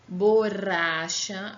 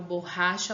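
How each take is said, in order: First: The middle R is a quick tongue tap. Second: The middle R is a throaty open sound. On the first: The speaker calls it wrong. "se nós tirássemos esse duplo R e deixássemos só um, olha como fica diferente" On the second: The speaker calls it right. "é aquele som que a gente fala de boca mais aberta"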